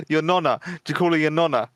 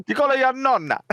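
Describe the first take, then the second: First: Put-on joking Italian accent; a light put-on Italian lilt. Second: Much higher, hammed-up Italian accent; exaggerated singsong Italian accent; worse Italian accent. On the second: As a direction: do a bad mock Italian accent. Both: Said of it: "Like a worse Italian accent".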